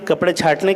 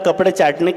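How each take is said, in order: First: The second word starts with an aspirated 'chh' sound. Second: The second word starts with an unaspirated 'ch' sound. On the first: The speaker calls it right. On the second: The speaker calls it wrong.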